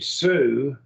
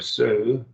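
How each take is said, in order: First: The word is said with strong emphasis. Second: The word is said without extra emphasis.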